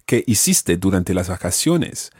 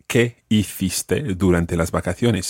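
First: It is said in a Latin American Spanish accent. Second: It is said in a non-Latin American Spanish accent. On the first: "In Latin American Spanish, I would have said" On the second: "my question was"

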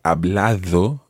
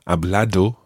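First: The d is soft, almost like English th. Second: The d is a hard, strong d sound. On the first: The speaker calls it right. "it's quite like the th of the word in English" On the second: The speaker calls it wrong. "as opposed to a very strong D sound"

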